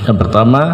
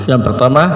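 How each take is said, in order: The two takes are said the same way.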